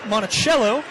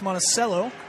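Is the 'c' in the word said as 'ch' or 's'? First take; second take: ch; s. First: The 'c' is said like a 'ch' sound. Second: The 'c' is said like an 's' sound. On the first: This is the name of the Virginia estate. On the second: This is the local place name.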